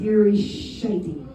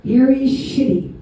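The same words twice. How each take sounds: First: "Shitty" said as SHY-tee; SHY-tee pronunciation. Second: "Shitty" said with a short i; SHIT-ee pronunciation. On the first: Comic showing a player's card, "Shitty" pronounced SHY-tee. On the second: Comic repeating the card's name, "Shitty" pronounced SHIT-ee. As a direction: say "Shitty" just like the swear word. Then said as the swear word. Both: Shown as a demonstration.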